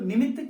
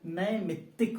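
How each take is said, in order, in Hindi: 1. पहले अक्षर में छोटा 'i' स्वर है। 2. पहले अक्षर में 'ai' स्वर है। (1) "निमित्तिक नहीं होता" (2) "बल्कि नैमित्तिक होता है"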